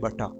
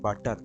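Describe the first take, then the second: First: It is said in a British accent. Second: It is said in an American accent. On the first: "British ইংলিশে it will be বাটা" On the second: "American ইংলিশে বাটার"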